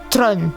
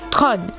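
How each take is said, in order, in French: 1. Le nom se prononce 'Tron'. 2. Le nom se prononce 'Tron'.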